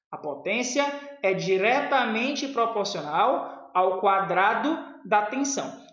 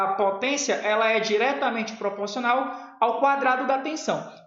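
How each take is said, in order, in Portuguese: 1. A frase é falada muito devagar. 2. A frase é falada em ritmo normal.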